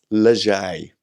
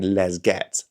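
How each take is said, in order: First: "leger" said as one word, a touch louder, as the fix; "leger", the corrected name said firmly. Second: "les get" said as two plain English words, les then get; "les get" with a hard g and a sounded t, the wrong way; "les get", the first mispronunciation; old wrong way. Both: Shown as a demonstration. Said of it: "when I was initially saying".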